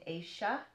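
The middle sound is an Argentine sh-like sound.

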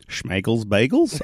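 The voice rises at the end, like a question.

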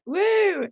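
It sounds lively and enthusiastic.

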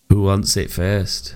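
It sounds only mildly creepy.

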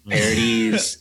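The name is said with an anglicized pronunciation. The speaker calls it wrong.

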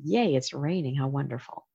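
It is said in a cheerful, Tigger-like way.

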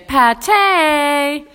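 The word is said with obvious delight. "we say pâté. It's that good"

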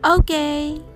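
It is said with bright, enthusiastic approval. It is perfect. "ポジティブな意味でバッチリですという気持ちを込めて"

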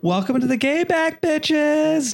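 It is said in a campy, flamboyant voice.

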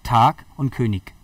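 It is said with a southern German accent.

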